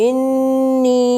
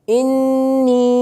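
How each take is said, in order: Both takes have the same delivery.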